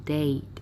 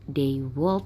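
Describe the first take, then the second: First: The words are contracted into one syllable. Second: Both words are said in full.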